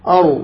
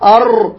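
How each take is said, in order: First: The r is a single light tap. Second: The r is rolled with several taps. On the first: The speaker calls it right. "هكذا مرة واحدة" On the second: The speaker calls it wrong. "خطأ"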